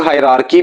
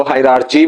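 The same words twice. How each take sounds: First: हायरार्की with a hard "k" in the last syllable; hard K variant. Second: हायरार्ची with "ch" in the last syllable; CH variant. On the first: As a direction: say हायरार्की ending in "kee". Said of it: "कई लोग हायरार्की भी बोलते हैं". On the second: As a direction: say हायरार्ची ending in "chee". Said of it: "कुछ लोग इसको हायरार्ची भी". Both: Shown as a demonstration.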